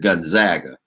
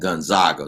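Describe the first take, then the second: First: The middle syllable sounds like 'Zag'. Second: The middle syllable does not sound like 'Zag'. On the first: It matches the team's nickname. "them being the Zags would say to me that it's Gonzaga" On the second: Many people say it this way. "I hear a lot of folks calling it Gonzaga"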